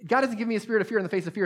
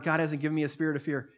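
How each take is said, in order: First: Fast and higher, rattled off in one breath; the preacher to the congregation, a rushed anxious declaration; rushed urgent declaration. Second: Said in the usual way. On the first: Shown as a demonstration. Fire it off fast and pitched up. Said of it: "I don't even need, see". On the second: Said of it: "declaring the word".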